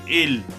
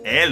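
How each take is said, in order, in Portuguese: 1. A vogal é fechada. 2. A vogal é mais aberta. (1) "Sempre fechado" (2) "mais aberto"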